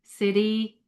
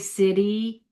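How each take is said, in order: First: The middle T sounds like a soft D. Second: The middle T sounds like a soft D.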